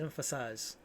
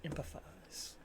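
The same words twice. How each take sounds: First: Emphasize said as EM-fuh-size, quiet and falling; corrected word. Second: Empathize whispered as /ɛmpəfaz/, the wrong word; a lost, unvoiced guess at the word; whispered wrong try. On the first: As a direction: settle on Emphasize, low and resigned. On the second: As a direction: breathe out empathize unsure, barely voiced. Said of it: "that's not it". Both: Shown as a demonstration.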